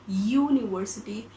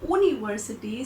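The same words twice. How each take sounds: First: The word begins with a y sound. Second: The word begins with a plain oo vowel. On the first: The speaker calls it right. "we get this ya sound in the beginning because we call it university" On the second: The speaker calls it wrong. "suppose if we have pronounced it as university"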